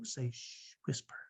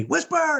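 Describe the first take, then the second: First: Very soft, slow hush; slow hushed whisper; whispered shush. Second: High, drawn-out cry, not whispered at all; high-pitched defiant kid voice; imitated child's yell. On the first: Retold or imitated. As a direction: coach a child to whisper, slowly. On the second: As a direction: mimic a child hollering it back. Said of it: "he would scream out".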